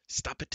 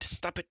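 First: High wail, the word it leaned on; pleading wail with it stressed; a high whine leaning on it; wailing plea. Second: Much higher wail, stop hit hard; a giant's rising shriek on stop; shrill wail. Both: Acted. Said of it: "Glue wailed in resounding despair".

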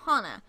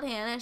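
First: Hana with open a sounds, HAH-nah; correct name. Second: Hannah with a flat a, like the English name; wrong name. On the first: Correcting herself, Hana said HAH-nah. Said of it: "She is not Hannah, she is Hana". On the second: The wrong reading, Hannah, HAN-nuh. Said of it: "Keep on wanting to call her Hannah". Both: Shown as a demonstration.

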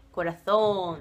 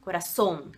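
First: "coração" said as "corathón"; Castilian TH for the C in "coração"; Spain's TH sound. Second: "Coração" as "corassón", plain S; low Argentine "Coração" with a hissed S; Argentine S sound. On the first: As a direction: draw out "coração" with an English TH in the middle. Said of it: "que tem no espanhol da Espanha". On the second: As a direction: say "Coração" in Spanish with S, no TH. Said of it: "não tem nesse da, da Argentina". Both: Shown as a demonstration.

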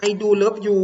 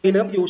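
First: "I do love you" with do pushed, louder than the plain version; stress on do. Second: Said in the usual way. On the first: Shown as a demonstration. Teacher showing students how do adds emphasis, stressed do. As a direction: lean on "do" to mean really. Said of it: "do คือการเน้น". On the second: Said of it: "แต่ถ้าเติม do".

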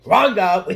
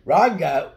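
First: Loud, high joking yell; playful shout. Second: Loud, high repeat yell; playful shout again. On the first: Kid yelling a joke line while drawing. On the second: Kid repeating the joke shout, laughing between. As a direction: yell it once more. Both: Pretend.

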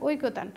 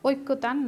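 First: ঐকতান said as oi-ko-tan, single k; correct pronunciation. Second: ঐক্যতান said as oik-ko-tan, doubled k; wrong-example oik-ko-tan for ঐক্যতান; mistaken pronunciation. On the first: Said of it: "শব্দটির সঠিক উচ্চারণ হচ্ছে". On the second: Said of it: "ঐক্যতান নয়". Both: Shown as a demonstration.

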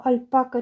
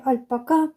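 First: "альпака" with the stress on -па-; middle-syllable stress. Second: "альпака" with the stress on final -ка; last-syllable stress. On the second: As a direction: push the stress to the end of "альпака". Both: Shown as a demonstration. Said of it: "як правильно альпака чи альпака".

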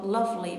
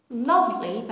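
First: Said in the usual way. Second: Lovely said slow and careful; slow model word. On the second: Shown as a demonstration. (شمرده و آهسته)

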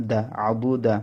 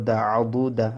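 The two takes are said the same way.

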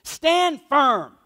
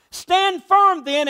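First: Said in the usual way. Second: Slow, higher, louder "Stand firm then"; rising, slowed-down exhortation; emphatic command. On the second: Retold or imitated. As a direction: drive each word home slowly. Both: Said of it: "He goes on".

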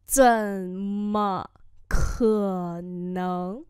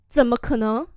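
First: 怎么可能 stretched out syllable by syllable; slow it right down for the class to copy; teacher's slow model reading. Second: Said in the usual way. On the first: Shown as a demonstration. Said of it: "slow model repeat". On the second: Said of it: "怎么可能? (slow repeat)".

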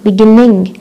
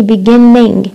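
First: Beginning with one short n, no doubling; correct beginning. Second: Beginning with a held double n like Arabic shadda; wrong doubled beginning. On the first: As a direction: say beginning with a single quick n. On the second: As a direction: lean on a long doubled n in beginning. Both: Shown as a demonstration. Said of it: "ما بصير نحكي beginning".

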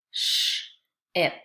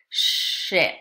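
First: "sh-ip" split, long hushing sh, pause, then ip; segmented digraph. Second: Said in the usual way. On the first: Shown as a demonstration. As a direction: hold the "sh" in "sh-ip", break before "ip". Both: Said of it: "Listen to this word as I say it".

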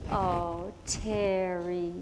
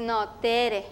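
First: "Terry" said the English way, lower, with an English r; teacher saying "Terry" with a flat American r, lower; anglicized name. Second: "Tere" said the Spanish way with a tapped r; Spanish name. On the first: Teacher renaming Tere, saying "Terry" the English way. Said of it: "And she say". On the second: Girl correcting the teacher, "Tere" with a tapped Spanish r. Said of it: "And I said". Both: Retold or imitated.

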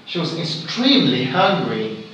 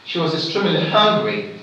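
First: "extremely" emphasized over "hungry"; stress on extremely. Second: Quicker line landing on "hungry"; stress on hungry. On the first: Teacher demonstrating shifted stress, weight on "extremely". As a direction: make "extremely" the main beat. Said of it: "I'm gonna stress now is this". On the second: Teacher demonstrating standard stress, weight on "hungry". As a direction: move briskly to a stressed "hungry". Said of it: "So there's this standard stress". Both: Shown as a demonstration.

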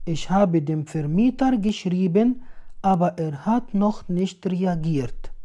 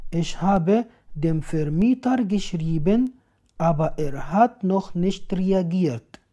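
No difference in how they are said.

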